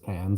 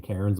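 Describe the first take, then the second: First: It is said without a Canadian accent. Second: It is said with a Canadian accent. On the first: This is how the name is actually said. The speaker calls it right. "but it's Cairns" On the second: This is the speaker's habitual way of saying it. The speaker calls it wrong. "I always want to say Cairns ... it's a Canadian accent"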